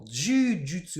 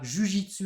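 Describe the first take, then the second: First: The first vowel is held long. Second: The first vowel is kept short. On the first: This is the Japanese form. "on a bien l'allongement" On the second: This is the French form. "pas d'allongement"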